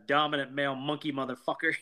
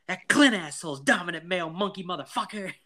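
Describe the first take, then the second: First: Said in the usual way. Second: High, worked-up mock rant; Mike. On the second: Podcaster imitating Mike before round two with the bully, riled high voice. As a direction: spit out the insult in a raised, put-on voice. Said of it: "That's from Mike whenever he decides".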